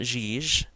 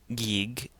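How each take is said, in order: First: Both G sounds are soft, like J. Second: Both G sounds are hard, like go. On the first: "It's not Jij" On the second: "and it's not Gig"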